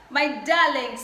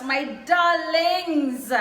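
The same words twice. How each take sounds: First: Said in the usual way. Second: Drawn-out fond darlings. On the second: Real, not acted. Fond address to returning subscribers.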